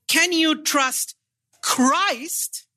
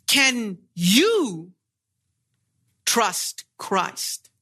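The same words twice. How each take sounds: First: Christ given the weight, falling at the end; questioning who Christ is; stress on Christ. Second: Asking the listener himself; stress on you. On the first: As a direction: lean on the word Christ. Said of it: "the emphasis is on Christ". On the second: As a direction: put the weight on you. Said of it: "The question now is, are you able to trust?". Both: Shown as a demonstration.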